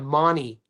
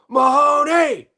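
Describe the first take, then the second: First: The name is said the shortened Australian way. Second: The name is said the usual American way.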